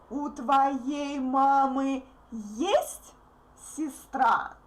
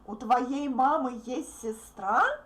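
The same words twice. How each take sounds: First: The question stress falls on есть. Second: The question stress falls on сестра. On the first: The asker wants to know whether she has a sister. "my intonation stress is into this word" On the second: The asker is surprised she has a sister. "you should mark the last word uh, with your intonation"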